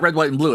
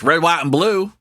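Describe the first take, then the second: First: The phrase is said plainly, without special inflection. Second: The phrase is said with strong, marked inflection. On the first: The speaker calls it wrong. "It's not" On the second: The speaker calls it right. "the appropriate inflection"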